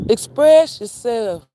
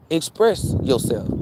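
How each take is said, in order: First: "Express yourself" slow, high and loud, EXPRESS hit hard; emphatic loud repeat. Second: Said in the usual way. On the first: Shown as a demonstration. Urging followers to speak up, slow loud emphasis.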